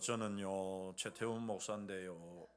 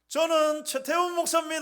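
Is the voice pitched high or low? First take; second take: low; high. First: It is said in a low, flat voice. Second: It is said with a raised pitch.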